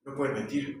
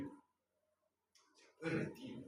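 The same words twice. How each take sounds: First: Said in the usual way. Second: Slow whispered repeat. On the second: Shown as a demonstration. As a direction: breathe the line out slowly. Repite la frase en susurro. (susurro lento, casi sin voz)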